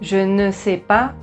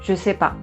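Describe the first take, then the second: First: The word ne is pronounced in full. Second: The word ne is left out entirely. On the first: "au lieu de dire" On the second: "on va dire"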